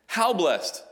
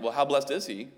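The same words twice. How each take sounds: First: "How blessed" said high and loud as an exclamation; "How blessed" falling as a statement; stress on How blessed. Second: As a question. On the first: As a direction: hit "How" hard, falling off. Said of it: "it's a statement". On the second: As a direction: ask it as a real question. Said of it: "if you asked it as a question like". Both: Shown as a demonstration.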